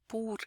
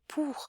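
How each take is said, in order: First: It is said Portuguese-style, with less air released. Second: It is said French-style, with more air released. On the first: "a não ser que eu falasse aportuguesado" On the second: "Mas ele sai o pour"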